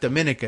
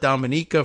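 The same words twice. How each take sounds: First: It is said like the start of Dominican. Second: It is said unlike the start of Dominican. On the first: This is how the spelling suggests it is said. The speaker calls it wrong. "It's not Dominica. It looks like Dominica, like Dominican Republic" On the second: This is how the people there say it. The speaker calls it right. "they call it Dominica"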